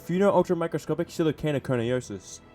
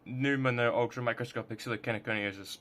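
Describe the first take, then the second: First: The word begins with a 'fee-no' sound. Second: The word begins with a 'new-mo' sound. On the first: The speaker calls it wrong. "I realized I pronounced it Pheno" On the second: The speaker calls it right. "but it's actually Pneumono"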